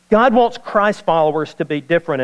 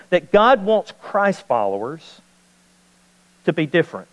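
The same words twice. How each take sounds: First: Said in the usual way. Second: Slow, weighty delivery with a pause before "to be different"; a preacher driving home "different"; slow emphatic statement. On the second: Shown as a demonstration. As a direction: say "God wants Christ followers" slowly, then pause and land "to be different".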